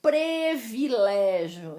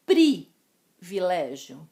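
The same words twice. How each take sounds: First: Privilégio said as previlégio; slowly, Privilégio with pre at the start; wrong form. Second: Privilégio with a clear pri; slowly, pri-vi-lé-gio; correct form. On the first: Teacher showing the mistake, slowly. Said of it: "escritas com E, mas nós pronunciamos com som de I". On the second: Teacher giving the right form, slow and stressed. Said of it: "Exemplos trazidos pela apostila". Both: Shown as a demonstration.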